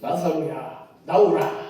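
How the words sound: It is said in a grand, majestic manner.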